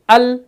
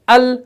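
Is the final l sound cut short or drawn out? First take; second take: cut short; cut short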